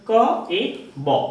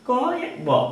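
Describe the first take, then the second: First: The sounds are said slowly and separately. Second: The sounds are said lightly and run together.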